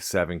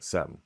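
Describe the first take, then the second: First: The word is said with all its sounds. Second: The word is said shortened with sounds dropped.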